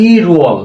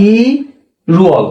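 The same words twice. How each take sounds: First: Said in the usual way. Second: ইরুয়াল stretched out very slowly, every sound drawn long; slow demo. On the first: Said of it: "কি হলো?". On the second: Shown as a demonstration. Teacher showing students how to say it, very slow. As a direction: draw out ইরুয়াল slowly for the learners. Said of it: "তো উচ্চারণ কি হবে?".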